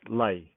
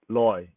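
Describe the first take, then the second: First: The vowel sounds like 'ai'. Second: The vowel sounds like 'oy'. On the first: This is the everyday spoken pronunciation. "when we say it, it's pronounced lai" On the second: This is the reading pronunciation. "when we read it, it is pronounced loy"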